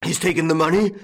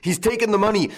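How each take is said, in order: First: High, loud, incredulous bellow rising at the end; bellowed question. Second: Very high outcry, falling at the end; bellowed alarm. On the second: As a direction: raise the alarm as an exclamation. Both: A narrator's reading. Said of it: "bellowed old Goussot".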